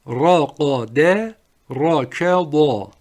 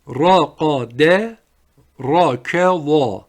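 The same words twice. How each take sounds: The two takes are said the same way.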